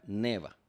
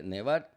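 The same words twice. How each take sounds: First: "neva" stressed on the first syllable, ne-. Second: "nevar" stressed on the last syllable, -var; infinitive, final stress. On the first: Teacher shows stress moving, first-syllable stress on "neva". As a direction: shift the force onto the e of "neva". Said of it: "Cayó en la E". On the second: Teacher contrasts infinitive, final stress on "nevar". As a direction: put the force on "var" in "nevar". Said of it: "¿Qué pasó con la fuerza de pronunciación?". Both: Shown as a demonstration.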